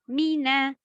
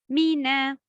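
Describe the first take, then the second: No difference in how they are said.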